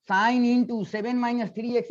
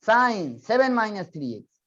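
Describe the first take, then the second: First: "sine into" read as if multiplying "seven minus three x"; wrong reading demo. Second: "sine", short break, then "seven minus three x" as its angle; correct reading demo. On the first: Teacher warns student against multiplication reading, wrong reading demo. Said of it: "मत पढ़ना". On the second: Teacher shows student how to read the angle, correct reading demo. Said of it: "ऐसे पढ़ना". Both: Shown as a demonstration.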